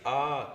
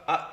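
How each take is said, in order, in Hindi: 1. स्वर खिंचा हुआ है, तीन मात्रा। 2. स्वर छोटा है, एक मात्रा। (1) "Pluta is A" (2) "A is Hraswa"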